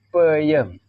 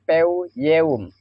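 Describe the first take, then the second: First: The word is said smoothly as one natural word. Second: The word is read out following its separate letters. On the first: The speaker calls it right. "Tapi baca yang benarnya peyem" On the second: The speaker calls it wrong. "Dibaca peu yeum"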